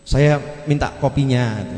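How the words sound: It sounds pitiful and pleading.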